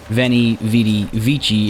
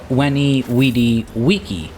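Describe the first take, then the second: First: It is said in the commonly heard way. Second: It is said with classical Latin pronunciation. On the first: The speaker calls it wrong. "is how you might have heard it said, and if so, you've heard wrong" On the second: The speaker calls it right. "it's actually Veni, vidi, vici, because, well, that's classical Latin"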